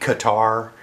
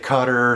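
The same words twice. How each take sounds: First: It is said rhyming with guitar. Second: It is said without rhyming with guitar. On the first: "like guitar, but but with a K" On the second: "some people say Qatar"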